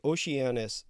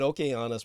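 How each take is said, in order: First: It is said the English way, with a soft consonant. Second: It is said the Greek way, with a hard 'k'.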